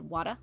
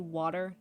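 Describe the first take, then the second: First: The R at the end is dropped. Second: The R at the end is clearly pronounced. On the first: "when I was little, I said water" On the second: "I say water now"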